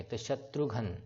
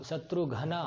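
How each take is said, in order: First: "शत्रुघ्न" said as one word, ending on "घ्न" with no "अ"; "शत्रुघ्न" pronounced correctly with the final vowel dropped; correct pronunciation. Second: "घना" said with a full "ना" at the end, syllables split apart; "शत्रु घना" pronounced wrongly with an extra "अ" after "न"; wrong pronunciation. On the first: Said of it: "अ का उच्चारण नहीं दे रहा यहाँ पे". (सही उच्चारण, "शत्रुघ्न" के अंत में "अ" नहीं) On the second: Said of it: "ये नहीं आ रहा". (गलत उच्चारण, "घना" में "ना" पूरा बोला) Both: Shown as a demonstration.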